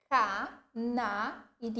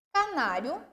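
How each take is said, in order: First: "Ca-na-ri-o" in four slow, separate syllables. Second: Said in the usual way. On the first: Shown as a demonstration. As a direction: split "Ca-na-ri-o" with a clear gap after each syllable. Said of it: "separando em sílaba".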